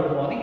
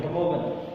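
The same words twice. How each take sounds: First: Said in the usual way. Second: "good morning" as "gut mogen", supposedly French; French accent. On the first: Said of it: "It is not a good morning". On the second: Shown as a demonstration. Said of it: "the French".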